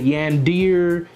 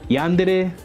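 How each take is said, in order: First: The word ends in a single 'deer' syllable. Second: The word ends in two syllables, 'deh-reh'. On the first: The speaker calls it wrong. "And then I would say yandir" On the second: The speaker calls it right. "it's actually dere"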